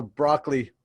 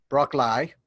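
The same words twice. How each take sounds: First: Said in the usual way. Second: Broccoli ending in a long "lie", Australian-style. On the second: Shown as a demonstration. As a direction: stretch the end of broccoli into "lie". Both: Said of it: "Why do Australians call broccoli".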